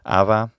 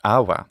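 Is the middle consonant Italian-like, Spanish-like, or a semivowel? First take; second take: Spanish-like; semivowel. First: The middle consonant is a soft Spanish-style fricative. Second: The middle consonant is a w-like semivowel. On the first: "the intervocalic fricative of Spanish" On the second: "more of a semivowel"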